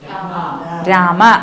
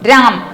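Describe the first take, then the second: First: The word ends with a short a vowel. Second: The word ends on the m sound. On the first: This is the Sanskrit pronunciation. "പക്ഷെ സംസ്കൃതത്തിലോ രാമ" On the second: This is the Hindi pronunciation. "ഹിന്ദിയിൽ എങ്ങനെയാണ് ഉച്ചരിക്കുക? രാം"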